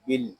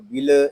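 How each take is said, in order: First: The L closes the syllable with no vowel. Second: The L is followed by an extra vowel sound. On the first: The speaker calls it right. "इसको सुकून के साथ अदा करेंगे" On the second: The speaker calls it wrong. "इसको बिल ऐसे नहीं पढ़ेंगे"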